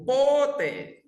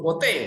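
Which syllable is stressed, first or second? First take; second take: first; second. First: The stress is on the first syllable. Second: The stress is on the second syllable. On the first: It asks when. "penekannya di O" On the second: It means never. "tekannya di E"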